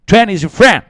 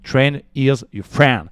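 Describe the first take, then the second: First: Loud, high-pitched English-accent showpiece; over-the-top English accent, much higher; exaggerated English accent. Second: Slow, slightly raised English; careful French-accented English delivery. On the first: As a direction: belt it out in a showy English accent. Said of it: "quel accent anglais". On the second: English catchphrase, French speaker, showing accent. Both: Shown as a demonstration.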